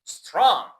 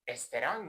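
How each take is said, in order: First: The word starts directly with the s sound. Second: An extra vowel is added before the s. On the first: The speaker calls it right. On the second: The speaker calls it wrong.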